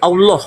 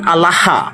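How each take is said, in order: First: It is said with a nasal, o-like vowel. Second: It is said with the plain Arabic vowel. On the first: "itu ini jadi Allah ... Ibrani punya"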